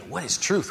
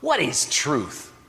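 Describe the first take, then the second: First: It sounds like a sincere, curious question. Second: It sounds like a scornful, dismissive question.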